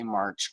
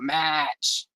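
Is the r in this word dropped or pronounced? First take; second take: pronounced; dropped. First: The r is pronounced, in a plain accent. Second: The r is dropped, in a Boston-style accent. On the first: The speaker calls it right. "that is not how you say March" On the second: The speaker calls it wrong. "It's the fake Boston accent"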